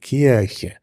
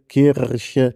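First: The r is softened into a vowel-like sound. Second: The r is trilled at the back of the throat. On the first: "Also ich wenigstens würde Kirche sagen" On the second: "sondern mehr ein uvularer Vibrant"

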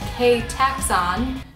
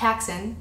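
First: The name begins with a spoken K sound. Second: The name begins without any K sound. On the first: The speaker calls it right. "the K is not silent" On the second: The speaker calls it wrong. "not Taxon"

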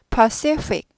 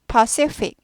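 First: A clear P sound, then a clear F sound. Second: A clear P sound, then a clear F sound.

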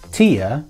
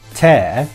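First: The vowel sounds like the one in beer. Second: The vowel sounds like the one in bear. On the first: "similar to beer" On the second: "similar to bear"

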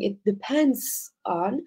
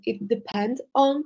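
First: The verb is said with a final 's' sound. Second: The verb is said without a final 's' sound. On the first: This is the correct verb form. The speaker calls it right. "instead of saying" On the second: This is a singular/plural grammar mistake. The speaker calls it wrong. "you said, for example"

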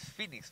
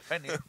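First: The name is said with English sounds. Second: The name is said with Spanish sounds. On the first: The name of the bar is given as intended. The speaker calls it right. "es Phoenix Bar" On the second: The name is read like the mythological bird. The speaker calls it wrong. "como si fuera el ave Fénix"

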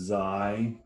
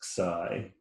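First: The letter name has its English pronunciation. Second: The letter name has its Greek pronunciation. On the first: "In English, we pronounce it as xi" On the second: "In Greek, it's pronounced as xi"

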